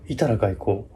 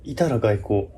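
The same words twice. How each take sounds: The two takes are said the same way.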